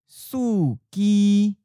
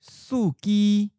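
First: It is said slowly and carefully. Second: It is said at a natural, normal speed. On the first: "and then slowly" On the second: "First natural speed"

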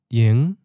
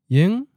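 First: The pitch rises from a low starting point. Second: The pitch rises from a mid starting point. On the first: It means idle or not busy. "So low-rising" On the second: It means tonight. "Now mid-rising"

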